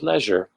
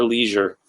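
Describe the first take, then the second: First: "leisure" with a short e, LEZH-er; variant pronunciation. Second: "leisure" with a long ee, LEE-zher; alternative pronunciation. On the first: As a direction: say "leisure" to rhyme with pleasure. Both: Shown as a demonstration. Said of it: "how you say things".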